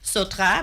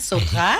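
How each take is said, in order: First: It is said in the speaker's ordinary accent. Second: It is said with a put-on French accent.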